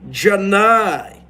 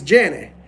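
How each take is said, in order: First: The name is said with a Southern drawl. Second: The name is said plainly, without a drawl. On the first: The speaker calls it right. "You gotta put a little southern charm into that" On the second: The speaker calls it wrong. "no one's gonna buy that"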